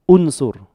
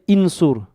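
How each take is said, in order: First: The word begins with a 'u' vowel. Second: The word begins with an 'i' vowel. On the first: The speaker calls it right. "I say unsur" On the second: The speaker calls it wrong. "I don't say insur"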